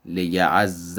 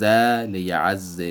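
First: لیعز said "li-ya'-azza", doubled z then a; لیعز with geminate z and fatha; Arabic merged with fatha. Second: لیعز said slowly "li-ya'-azzi", doubled z then i; slow لیعز ending on i; لیعز with geminate z and kasra; Arabic merged with kasra. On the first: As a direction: end لیعز on a. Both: Shown as a demonstration.

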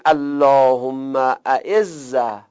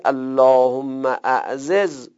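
First: اعزه said slowly with one doubled z and short a; merged form demo. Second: اعززه with both z sounds said apart; unmerged form demo. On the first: Teacher showing students the first of three forms of اعزه. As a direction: chant اللهم اعزه with the z held and merged. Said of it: "سه وجه بگید". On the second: Teacher showing students the second form of اعزه. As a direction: say اللهم اعززه with the two z sounds kept separate. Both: Shown as a demonstration.

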